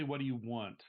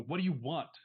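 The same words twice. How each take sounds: First: Said in the usual way. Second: Pressing louder and higher; insistent. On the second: Shown as a demonstration. Demands an answer from the evasive visitor, insistent. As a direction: finally demand it. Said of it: "Finally, you go".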